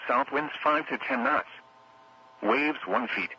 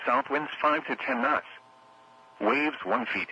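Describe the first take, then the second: No difference in how they are said.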